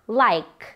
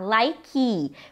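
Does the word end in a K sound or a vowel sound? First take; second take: K sound; vowel sound. First: The word ends cleanly on the K sound. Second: The word ends with an extra vowel after K. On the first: The speaker calls it right. "Então o som dessa palavra termina no K" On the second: The speaker calls it wrong. "Cuidado para não falar like"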